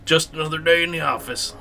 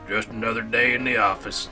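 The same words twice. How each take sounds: First: It is said in a plain reading voice. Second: It is said in a put-on Scruffy voice.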